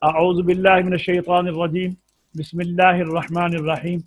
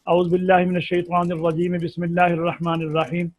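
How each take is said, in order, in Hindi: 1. दो वाक्यांशों के बीच एक विराम है। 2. दोनों वाक्यांश बिना विराम के एक साथ चलते हैं। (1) "यह है फसल कुल।" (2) "इसे कहते हैं वस्ल अव्वल"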